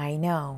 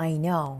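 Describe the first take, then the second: The two takes are said the same way.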